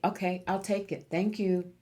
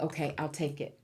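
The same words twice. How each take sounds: First: Open, willing "Okay, I'll take it. Thank you."; grateful, easy acceptance; gladly accepting. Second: Softer, hesitant "Okay, I'll take it."; reluctant, held-back acceptance. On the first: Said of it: "That's a message for you". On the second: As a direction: say "Okay, I'll take it" as if unsure you deserve it. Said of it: "you have a little trouble saying". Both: Retold or imitated.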